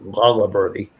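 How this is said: The name is pronounced with a Maine English accent.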